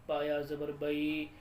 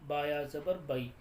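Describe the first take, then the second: Both takes have the same delivery.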